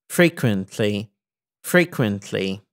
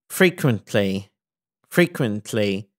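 No difference in how they are said.

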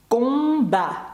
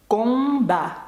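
No difference in how they are said.

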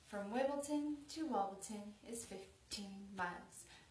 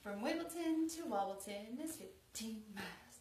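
First: It is said at a slower pace. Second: It is said at a faster pace.

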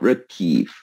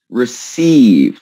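First: The c is said as a k sound. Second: The c is said as an s sound. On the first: The speaker calls it wrong. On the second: The speaker calls it right. "And the same here"

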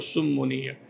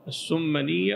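First: The doubled m is followed by a u vowel. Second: The doubled m is followed by an a vowel. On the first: "أو مضمومة" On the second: "والميم مشددة إما مفتوحة"

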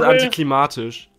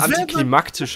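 First: No k sound comes before the t. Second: A k sound comes before the t. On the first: The speaker calls it wrong. "Jeder denkt, das heißt antiklimatisch" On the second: The speaker calls it right. "Wusstet ihr, dass es antiklimaktisch heißt?"

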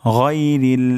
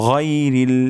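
The two takes are said the same way.

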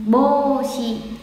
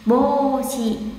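The two takes are said the same way.

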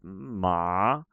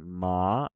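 First: The pitch dips down and then rises. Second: The pitch rises through the syllable. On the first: "Like a loop" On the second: "a rising ma"

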